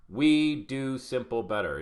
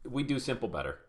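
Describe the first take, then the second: First: "We do simple better" drawn out word by word; slow, emphatic. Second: Said in the usual way. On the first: Real, not acted. Coach restates the group's motto for his students, slow and emphatic. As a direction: hammer the motto home slowly.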